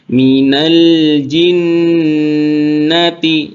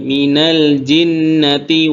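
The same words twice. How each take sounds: First: The doubled n nasal sound is held long. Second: The doubled n nasal sound is held briefly. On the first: The speaker calls it right. "jadi ditahan" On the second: The speaker calls it wrong. "dengungnya kurang sempurna"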